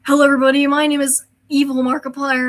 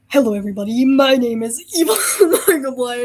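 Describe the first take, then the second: First: The voice is at its normal pitch. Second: The voice is pushed lower and deeper.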